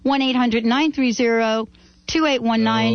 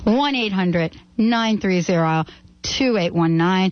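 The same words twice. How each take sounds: First: The number is said fast. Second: The number is said slowly.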